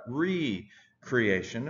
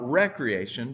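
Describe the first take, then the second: First: The word begins with a long 'ree' sound. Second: The word begins with a short 'rek' sound. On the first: It means creating something anew. The speaker calls it right. "but recreation" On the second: It means leisure or play. The speaker calls it wrong. "not recreation"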